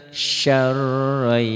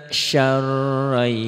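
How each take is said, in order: Both takes have the same delivery.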